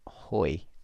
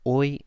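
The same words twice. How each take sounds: First: The word starts with an h sound. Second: The word starts with no h sound. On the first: The speaker calls it wrong. "not hoy" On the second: The speaker calls it right. "you don't pronounce the H in Spanish ever, so it's hoy"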